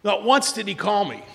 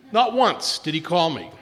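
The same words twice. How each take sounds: First: Once punched high; not once, leaning on once; stress on once. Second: Not hit hard and loud; NOT once, driving home not; stress on not. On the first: Telling the room he never called, stress on once. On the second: Repeating to the room he never called, stress on not. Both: Shown as a demonstration.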